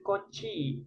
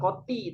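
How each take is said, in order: First: The word ends in a chi sound. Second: The word ends in a ti sound. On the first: The speaker calls it right. "tapi kochi" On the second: The speaker calls it wrong. "bukan koti"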